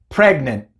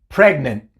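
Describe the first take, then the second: Both takes have the same delivery.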